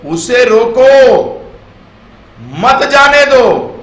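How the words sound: The pause comes after 'roko', meaning stop him.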